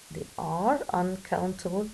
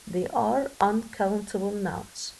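First: Said in the usual way. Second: Slow, deliberate teacher modelling; careful classroom dictation pace; slow model reading. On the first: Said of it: "teacher repeats the same sentence". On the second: Shown as a demonstration. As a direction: spell each word out slowly for the class. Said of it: "teacher models the sentence slowly".

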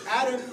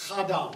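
First: Said in the usual way. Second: "Adam" said as AH-dah, both vowels open ah; Hebrew pronunciation. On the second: Shown as a demonstration. Lecturer giving the Hebrew sound of "Adam" to students, AH-dah. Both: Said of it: "Adam is a Hebrew word".

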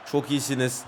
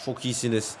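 Both takes have the same delivery.

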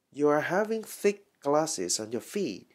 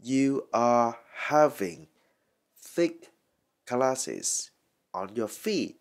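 First: Said in the usual way. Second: "You are having thick glasses" slowly, in separated pieces; slow dictation of "thick glasses" sentence; word by word. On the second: Shown as a demonstration. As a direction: pause between each chunk of "thick glasses on your feet". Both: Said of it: "Rồi, mình đọc lại là".

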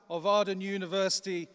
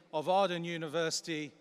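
No difference in how they are said.

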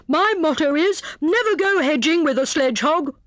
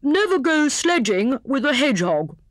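First: High, pompous hare with a slip; severe, muddled motto. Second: High hare voice setting it straight; corrected motto. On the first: Hare lectures hedgehog and muddles it, severe. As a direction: swap the starts of "hedging" and "sledgehog". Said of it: "said he severely". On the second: Hare restates motto to hedgehog, corrected. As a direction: say "sledging" and "hedgehog" distinctly, unswapped. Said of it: "he corrected himself hastily". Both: A narrator's reading.

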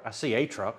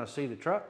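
First: "a" said as a full, punched word; stress on A. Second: Said in the usual way. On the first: Real, not acted. Storyteller correcting which truck he saw, stress on "a". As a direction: correct yourself by leaning on "a".

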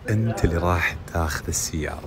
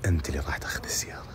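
First: Shouting. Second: Fast secret whisper. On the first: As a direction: call it out for everyone. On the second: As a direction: breathe it quickly in his ear. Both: Real, not acted. Secret news, then said aloud.

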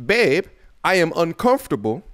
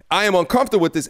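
First: A lightly put-on, half-hearted British accent; mock British accent, barely there; bad UK accent. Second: Said in the usual way. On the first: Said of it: "that was my U K accent. It was terrible". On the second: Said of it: "that was my U K accent".

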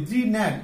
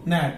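First: জি ন্যাট with the g wrongly sounded as "jee"; common mispronunciation. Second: ন্যাট starting straight on the n; silent-g pronunciation. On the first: Teacher mimicking learners' usual slip, জি ন্যাট with sounded g. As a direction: say জি ন্যাট as "jee-nat", g as its own syllable. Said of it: "আসলে উচ্চারণটা কি হবে?". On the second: Teacher giving learners the corrected form, ন্যাট with silent g. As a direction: say ন্যাট as "nat", no g at all. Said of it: "N এর আগে যেটা". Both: Shown as a demonstration.

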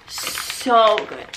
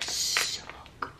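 First: Said in the usual way. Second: Soft breathy whisper. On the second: Real, not acted. Repeats praise, second whispered.

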